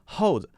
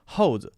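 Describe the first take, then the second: Both takes have the same delivery.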